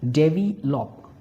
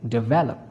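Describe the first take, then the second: First: "devi-lop" broken in two, stress off the middle syllable; wrong word stress. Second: "develop" stressed on the middle syllable, de-VEL-op; correct word stress. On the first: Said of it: "incorrect pronunciation". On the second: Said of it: "correct will be develop". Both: Shown as a demonstration.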